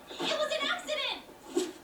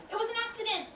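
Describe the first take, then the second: First: Drawn-out, high-pitched wail; desperate protest. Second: High, defensive plea; protesting. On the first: Girl insisting to the one she upset, slow high wail. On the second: Girl to the one she upset, high defensive protest. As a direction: plead innocence in a raised pitch. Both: Acted.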